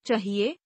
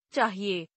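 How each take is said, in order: First: चाहिए with short first vowel, "chahiye" as chuh; mispronounced. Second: Said in the usual way. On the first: Shown as a demonstration. Teacher showing a vowel error, mispronounced with short first a. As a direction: clip the aa of चाहिए to uh. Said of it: "अशुद्ध". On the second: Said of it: "शुद्ध".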